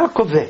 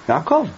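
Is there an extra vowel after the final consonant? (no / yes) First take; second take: yes; no. First: An extra vowel sounds after the final consonant. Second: The word ends cleanly on the final consonant. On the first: The speaker calls it wrong. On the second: The speaker calls it right.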